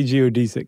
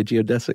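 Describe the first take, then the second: First: Stressed DEE in "geodesic"; "geodesic" with long ee. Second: Stressed DEZ in "geodesic"; "geodesic" with short e. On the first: Host keeping his usual version, "geodesic" said geo-DEE-zick. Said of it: "that's what I've always said". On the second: Co-host choosing his own version, "geodesic" said geo-DEZ-ick. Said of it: "I'm gonna say geodesic". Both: Shown as a demonstration.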